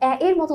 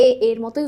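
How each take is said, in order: First: First এ opened to "ae" as in "cat"; open e sound. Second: First এ as a plain closed "e"; natural closed e. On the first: Teacher demonstrates the altered vowel, open e. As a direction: say the leading এ wide, as "ae". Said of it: "বলে তার বিবৃত উচ্চারণ". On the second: Teacher demonstrates the natural vowel, closed e. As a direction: keep এ closed, as in "e" of "they". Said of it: "স্বাভাবিক উচ্চারণ হচ্ছে". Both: Shown as a demonstration.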